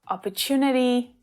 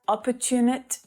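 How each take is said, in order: First: The final soft vowel sound is clearly heard. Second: The final vowel sound is dropped entirely. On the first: The speaker calls it right. "we definitely want to hear that vowel sound on the end" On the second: The speaker calls it wrong.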